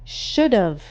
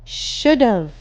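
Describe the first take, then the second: No difference in how they are said.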